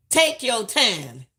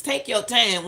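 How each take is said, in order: First: Slow, drawn-out advice. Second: Said in the usual way. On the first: Shown as a demonstration. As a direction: take your time said very slowly.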